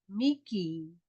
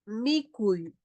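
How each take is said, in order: First: The word ends in a single plain i. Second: The word ends in a gliding ui diphthong. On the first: This is how speakers from the Callejón de Huaylas say it. "nosotros en el callejón de Huaylas decimos Miki" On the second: This is the form used by other speakers and in writing. "cuando es orden"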